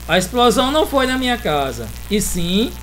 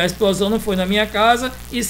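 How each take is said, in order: First: There is a pause before 'e sim'. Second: There is no pause before 'e sim'. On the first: "eu dei uma parada aqui, como se fosse para respirar" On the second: "mas não há necessidade"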